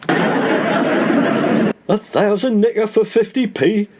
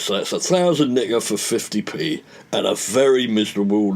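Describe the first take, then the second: First: Amazed disbelief. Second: Said in the usual way. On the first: Acted. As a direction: drag out "fifty P" slowly, high and amazed. [name] repeats payout amazed.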